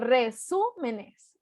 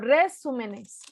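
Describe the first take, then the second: First: The stress falls on the third-to-last syllable, su. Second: The stress falls on a syllable other than su. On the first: The speaker calls it right. "digo resúmenes. Entonces es esdrújula" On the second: The speaker calls it wrong. "No digo resúmenes"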